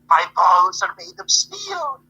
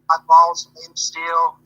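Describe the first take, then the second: First: It is said in Feretti's foreign accent. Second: It is said in a plain accent.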